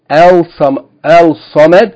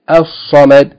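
First: A clear l is heard before the s. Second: The l merges into a doubled s sound. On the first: The speaker calls it wrong. "we don't say Kul huwa Allahu al-Samad" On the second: The speaker calls it right. "we say Al-Samad"

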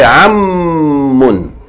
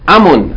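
First: The m sound is long and doubled. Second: The m sound is short and single. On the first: The speaker calls it right. "You say ammun. That means there's two memes" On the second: The speaker calls it wrong. "You don't say amun"

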